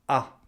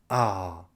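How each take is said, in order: First: The 'ah' is brief and cut off. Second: The 'ah' is drawn out and stressed. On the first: The speaker did not expect this. "le A plus court, comme ça, coupé un petit peu, c'est pour exprimer l'imprévu" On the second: The speaker feels relief. "appuyé, prolongé comme ça, c'est pour montrer le soulagement"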